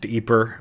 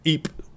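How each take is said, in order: First: The name is said the Dutch way. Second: The name is said the French way. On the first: "pronounced Yper by the Dutch" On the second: "Ypres by the French"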